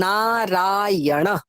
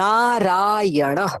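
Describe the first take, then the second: First: The a vowels are drawn out long. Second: The a vowels are drawn out long.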